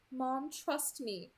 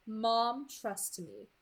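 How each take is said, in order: First: Slow, reluctant-sounding repeat; obedient repetition. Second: Understated, controlled delivery; feed the words for repeating; dictating captor. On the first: Bella echoes the captor to her mother, slow repetition. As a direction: repeat it slowly to reassure. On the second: Captor dictates words to Bella, controlled. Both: A narrator's reading.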